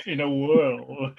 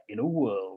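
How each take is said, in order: First: Slow, drawn-out trailer announcer; movie trailer voice. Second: Deep, dramatic trailer announcer; movie trailer voice. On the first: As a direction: stretch it like an epic trailer line. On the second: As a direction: read it like an epic film trailer. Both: Shown as a demonstration. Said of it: "I sounded like the trailer guy then".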